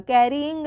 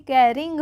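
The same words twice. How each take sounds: First: Carrying as "ke-ree-ing", middle vowel drawn out; wrong pronunciation. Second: Carrying as "ke-ring", short in the middle; correct pronunciation. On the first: Teacher warns learners off this reading, mispronounced. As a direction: stretch the "yi" in carrying into a separate syllable. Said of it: "carrying नहीं पढ़ेंगे". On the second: Teacher confirms how it is read, correctly pronounced. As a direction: say carrying in two syllables, no long "ee". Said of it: "carrying होगा". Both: Shown as a demonstration.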